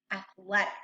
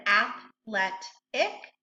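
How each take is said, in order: First: Said in the usual way. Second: "athletic" in three separate syllables, with pauses. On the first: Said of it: "we're gonna blend it together". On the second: Shown as a demonstration. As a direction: slowly break "athletic" into ath, let, ic. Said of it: "we're gonna read each syllable".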